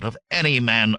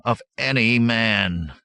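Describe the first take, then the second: First: Mildly heated retort; hot denial. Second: Slow, loud "Of any man" with weight on "man"; peculiar emphasis. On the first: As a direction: deny it with a touch of temper. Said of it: "Aberius said hotly". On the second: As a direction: repeat "Of any man", drawing it out pointedly to end on "man". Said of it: "a peculiar emphasis to the last word". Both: A narrator's reading.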